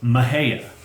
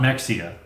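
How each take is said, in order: First: The middle consonant is a soft 'h' sound. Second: The middle consonant is a 'ks' sound. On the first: The speaker calls it right. "M E X I A is pronounced Mejia" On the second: The speaker calls it wrong. "not Mexia"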